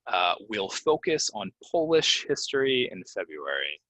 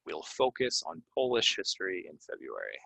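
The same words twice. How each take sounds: First: Polish said with a long o as in Poland; model sentence. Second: Polish with long o, said quieter; softer repeat. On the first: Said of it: "it's Polish". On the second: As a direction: repeat the sentence calmly. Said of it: "Polish is what you put on your nails". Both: Shown as a demonstration.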